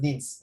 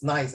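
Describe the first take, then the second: First: "Nins" said the French way, "neess" with no "eye" sound; the French reading "Nins", not "nice"; French pronunciation of Nice. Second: "nice" said the English way, like the adjective, rhyming with "rice"; the wrong English reading of "nice"; wrong English pronunciation. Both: Shown as a demonstration. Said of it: "This one don't pronounce as nice".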